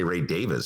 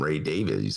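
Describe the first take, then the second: First: The surname is said as Davis. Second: The surname is said as Davies. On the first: The speaker calls it right. "If I say Ray Davis" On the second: The speaker calls it wrong. "I just call him [name]"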